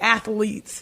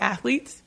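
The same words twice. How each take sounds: First: It is said with an added Southern middle syllable. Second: It is said plainly without the extra syllable.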